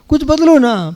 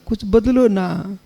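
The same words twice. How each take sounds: First: It is said a little louder. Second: It is said softly and gently. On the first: Patience is starting to run out. "फिर दूसरे दिन थोड़ी आवाज बढ़ेगी" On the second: The request is made with affection. "पहले दिन प्रेम से बोलेगा"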